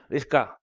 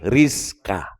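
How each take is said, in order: First: Rizka said with stiff lips that do not move; the incorrect Rizka with no lip movement; wrong way. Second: Rizka said slowly with the lips moving on the R; the correct Rizka with lips moving; right way. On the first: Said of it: "Jadi jangan". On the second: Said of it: "Digoyangkan ini bibir". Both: Shown as a demonstration.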